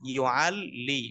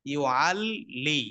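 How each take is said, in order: First: Said in the usual way. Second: ইউআল্লি said slowly with the লাম held long and doubled; doubled lam shown slowly. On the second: Shown as a demonstration. Teacher showing students the doubled lam in ইউআল্লি, slow and drawn out. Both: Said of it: "মানে দুইটা লামের উচ্চারণ হয়েছে".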